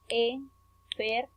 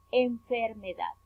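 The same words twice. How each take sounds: First: "enfermedad" slowly in four separate beats; syllable by syllable. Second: Said in the usual way. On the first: Shown as a demonstration. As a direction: split "enfermedad" as en, fer, me, dad. ("enfermedad" lento, sílaba por sílaba) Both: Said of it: "cuatro sílabas".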